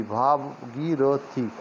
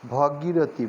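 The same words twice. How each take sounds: First: "Bhagirathi" very slow, as "bhaa-gii-ro-thi"; syllable by syllable. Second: Said in the usual way. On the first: Shown as a demonstration. Teacher sounds out Bhagirathi for learners, syllable by syllable. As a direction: stretch and separate each syllable of "Bhagirathi".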